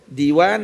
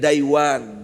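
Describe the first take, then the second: First: The first syllable has a plain long 'ee' vowel. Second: The first syllable has an 'ai' diphthong vowel. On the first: "ada dibaca dengan diwan" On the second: "ada boleh baca dengan daiwan"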